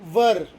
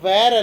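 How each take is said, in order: First: The vowel sounds like 'er', as in 'her'. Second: The vowel sounds like 'air', as in 'where'. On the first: The speaker calls it right. "ಉಚ್ಚಾರ ಏನಾಗಬೇಕು? ವರ್" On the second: The speaker calls it wrong. "ವ್ಯಾರ್ ಅಲ್ಲ"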